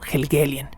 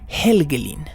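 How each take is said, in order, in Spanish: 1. El nombre se dice de la forma común en inglés. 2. El nombre se dice de la forma nórdica. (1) "Tanto en inglés como en español se pronuncia como Helgelien" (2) "la pronunciación, digamos, más nórdica, más germánica"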